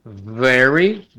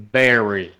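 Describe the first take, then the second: First: Very with a buzzing v, teeth on lip; very with a real v; right English v; correct v. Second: Very said as bery with a b; very with a Spanish b; wrong b sound. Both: Shown as a demonstration. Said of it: "tengo que pronunciar very".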